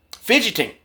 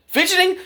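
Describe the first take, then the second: First: Said in the usual way. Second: "Fidgeting" thrown up high in disbelief; incredulous echo. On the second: Shown as a demonstration. Man scoffing at the officer's excuse, "Fidgeting" in high disbelief. Echoing cop's word, mocking.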